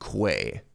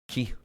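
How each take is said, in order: First: It is said to rhyme with 'way'. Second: It is said exactly like 'key'. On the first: "like quail" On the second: "Like the energy that martial artists use"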